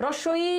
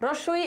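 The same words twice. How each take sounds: The two takes are said the same way.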